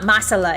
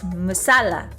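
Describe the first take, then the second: First: The stress is not on the second syllable. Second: The stress is on the second syllable. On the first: The speaker calls it wrong. "It's not masala" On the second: The speaker calls it right. "You emphasize the second syllable"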